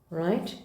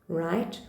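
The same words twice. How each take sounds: The two takes are said the same way.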